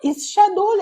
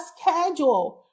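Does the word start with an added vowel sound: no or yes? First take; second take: yes; no. First: An extra vowel comes before the initial s. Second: The word begins directly with the s sound. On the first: The speaker calls it wrong. "Você falou is schedule até agora" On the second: The speaker calls it right. "conseguiu falar schedule"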